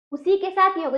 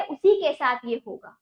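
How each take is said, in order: First: साथ stressed, said a little louder; emphatic repeat. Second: Said in the usual way. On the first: Shown as a demonstration. (साथ पर ज़ोर देकर दोहराएँ)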